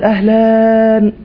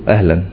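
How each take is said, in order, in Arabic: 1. تُقال التحية بنبرة دافئة ومرحبة. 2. تُقال التحية بنبرة باردة وغير مرحبة. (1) "ده كده ايه؟ مرحب" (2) "اهلا تفضل دي معناها ما تخشش يعني"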